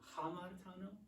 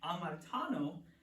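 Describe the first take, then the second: First: The word begins with an h sound. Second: The word begins directly with a vowel sound. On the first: This is the older, ancient pronunciation. "in ancient Greek, this used to be pronounced as a h at the front" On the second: This is the pronunciation used today. "for modern Greek, for this class, we're going to pronounce them the same"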